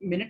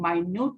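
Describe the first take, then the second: First: The word begins with a short 'min' sound. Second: The word begins with a long 'my' sound. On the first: A unit of time. "मिनट होता है" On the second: Something very small. "जिसको हम माइन्यूट बोलते हैं"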